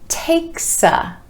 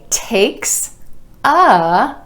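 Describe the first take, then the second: First: The s sound links onto the a. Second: The two words are said separately.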